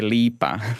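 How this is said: It is said the Croatian way, lipa.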